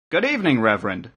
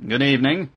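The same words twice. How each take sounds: First: Cheerful. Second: Understated grunt of a greeting. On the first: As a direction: greet him cheerfully, pitch lifted then dropping. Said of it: "Mister Breek replied cheerfully". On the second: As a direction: greet with a slight grunt, little lift. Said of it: "grunted Razek, the editor". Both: A narrator's reading.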